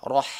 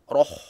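First: The vowel is drawn toward an a sound. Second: The vowel stays a rounded o sound. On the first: The speaker calls it right. "ha perlu tarik kat dalam vokal A" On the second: The speaker calls it wrong. "Jangan roh"

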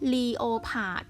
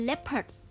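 First: It is said with three syllables, lee-oh-pard. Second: It is said with two syllables, lep-erds. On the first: The speaker calls it wrong. "หลายคนชอบอ่านคำนี้ว่า" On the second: The speaker calls it right. "เราอ่านว่า"

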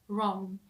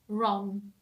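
Both takes have the same delivery.

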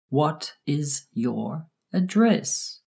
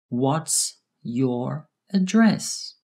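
First: The words 'what is' are said in full. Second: The words 'what is' are contracted to 'what's'.

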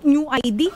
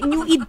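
First: The second word is spelled out as two letters. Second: The second word is said as one syllable. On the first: The name is read as identity card. The speaker calls it wrong. "Akala ko nga nung New ID" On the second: The name refers to the Freudian id. The speaker calls it right. "New Eid po yan"

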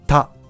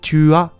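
First: The words merge into one short syllable, ta. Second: Both words are said fully, as two syllables. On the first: "t'as になっているところがあります。これは文法的には間違いで" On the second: "tu as が、"

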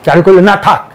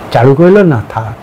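First: It is said in a plain, dismissive tone. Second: It is said in a reluctant, hesitant tone. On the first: There is simply no need for it. "একটা থাক দরকার নেই" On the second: The speaker wants it but declines anyway. "আমার চাইছি কিন্তু বারণ করছি"

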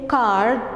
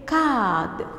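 First: The R sound after the vowel is pronounced. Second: The R sound after the vowel is not pronounced. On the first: This is the American English way. "We don't say card. Card is correct, of course, because it's American English" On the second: This is the British English way. "What we say, card"

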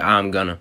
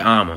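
First: The phrase is partly shortened into two syllables. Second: The phrase is squeezed into one short word. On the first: This is the general way of saying it. "y'all say I'm gonna" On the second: This is the Southern way of saying it. "We just say I'ma. It's way faster"

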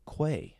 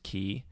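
First: It starts with kw and a long a vowel. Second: It starts with a plain k sound. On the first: "the second one is K-W long A" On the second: "the first one is key"

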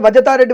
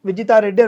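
First: The name begins with a 'va' sound. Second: The name begins with a clear 'vi' sound. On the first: The speaker calls it wrong. "వజ అంటే మీకు వినబడుతుందా" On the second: The speaker calls it right. "మీ పేరు ఇప్పుడు విజితారెడ్డి అనుకుందాం"

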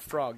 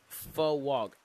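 First: The word is said with an R sound. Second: The word is said with a W sound. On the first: The speaker calls it wrong. "Not frog" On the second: The speaker calls it right. "it's frog. F-W-O-G"

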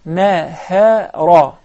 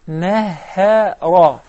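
The two takes are said the same way.

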